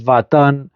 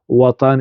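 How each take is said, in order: First: The word begins with a v sound. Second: The word begins with a w sound. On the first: This is how Turkish speakers say it. "يقولون فاتان، بقلب الواو أو الدبليو إلى في" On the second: This is how Arabic speakers say it. "لا يقولون وطن"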